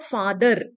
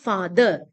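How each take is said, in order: First: The final R sound is pronounced. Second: The final R sound is dropped. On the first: The speaker calls it wrong. "it's not father" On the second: The speaker calls it right. "we never pronounced R at the final position"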